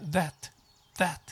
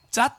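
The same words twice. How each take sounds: First: That with a soft voiced th, short and falling; correct that. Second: That with a j-like start, katakana-style; wrong that. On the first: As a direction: model the right that after the wrong one. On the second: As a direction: show the mistaken that. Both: Shown as a demonstration. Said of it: "thatと言わない".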